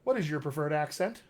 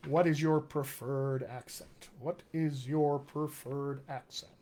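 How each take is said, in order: First: Said in the usual way. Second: Slow, measured question to the audience; slow, deliberate repeat. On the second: Real, not acted. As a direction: spell the question out slowly, word by word. Slowly repeats the question for viewers.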